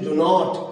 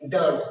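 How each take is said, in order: First: It is said as two full words. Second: It is said as one contracted syllable. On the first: "শব্দটি ডু নট" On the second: "ডু নট না বলে কি বলছি? ডান্ট"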